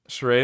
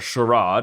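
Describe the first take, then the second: First: It is said in an everyday, plain way. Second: It is said in a fancier, regional way.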